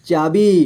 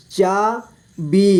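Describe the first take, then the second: First: Said in the usual way. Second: चाबी split slowly into चा, बी; syllable by syllable. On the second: Shown as a demonstration. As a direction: stretch and separate चा and बी in चाबी. (चाबी को तोड़कर धीरे: चा, बी) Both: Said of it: "इस तरह से आपको".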